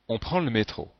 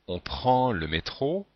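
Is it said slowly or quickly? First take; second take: quickly; slowly. First: It is said quickly, in a relaxed way. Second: It is said slowly, every sound pronounced.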